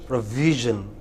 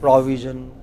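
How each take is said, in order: First: The stress is on the second syllable. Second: The stress is on the first syllable. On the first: The speaker calls it right. "The second syllable" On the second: The speaker calls it wrong. "They took it to the initial syllable"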